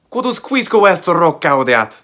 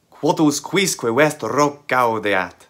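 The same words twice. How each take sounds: First: The sentence is spoken at a faster pace. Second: The sentence is spoken at a slower pace.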